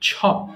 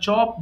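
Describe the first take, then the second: First: The first sound is aspirated. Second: The first sound is unaspirated. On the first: The speaker calls it right. "তারা কি বলে ছ বলে" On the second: The speaker calls it wrong. "আমরা চপ বলি"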